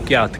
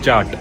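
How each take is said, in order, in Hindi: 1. शब्द 'ky' ध्वनि से शुरू होता है। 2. शब्द 'ch' ध्वनि से शुरू होता है। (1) "के वाई ए टी" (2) "लेकिन उसे प्रोनाउंस करते हैं चाट"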